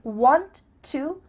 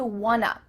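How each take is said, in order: First: Both words are said fully and separately. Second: The words are blended into one short form.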